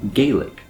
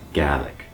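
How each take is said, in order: First: It uses the pronunciation common outside Scotland. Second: It uses the native Scottish pronunciation. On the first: "If you live in the United States or another country outside of Scotland, you might see this word and pronounce it" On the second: "using the native pronunciation"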